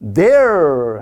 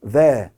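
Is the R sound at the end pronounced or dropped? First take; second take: pronounced; dropped. First: The final R sound is clearly pronounced. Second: The final R sound is dropped. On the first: "there 하잖아요" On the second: "영국에서는 R 사운드 빼버리니까"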